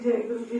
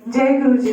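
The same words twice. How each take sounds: First: It is said glumly, with low energy. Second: It is said loudly, with high energy.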